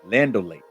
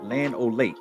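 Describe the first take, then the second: First: The first part is run together as 'Lando'. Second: The name is said fully as 'Land O'. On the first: This is the casual neighborhood way to say it. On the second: This is the proper way to say it. "you said it right"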